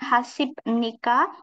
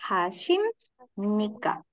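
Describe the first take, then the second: First: A b sound comes before nika. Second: An m sound comes before nika. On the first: The speaker calls it wrong. "Jadi bukan Hasib Nika" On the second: The speaker calls it right. "yang benar Hasim Nika"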